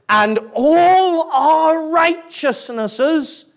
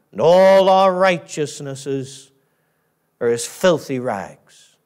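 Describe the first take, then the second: First: High, slow, drawn-out "all", rising to the end; "all" held long and lifted; stress on "all". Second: Slow verse, "all" leaned on, "filthy rags" dropped low; slow, falling, final reading; grave verdict. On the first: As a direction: stretch "all" high and leave the phrase hanging. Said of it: "another word worthy of highlighting". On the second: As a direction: start firm on "all", sink to "filthy rags". Preacher answers the hopeful objection. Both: Shown as a demonstration.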